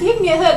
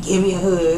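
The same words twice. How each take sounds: First: It is said in an ordinary voice. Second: It is said in an exaggerated deep voice.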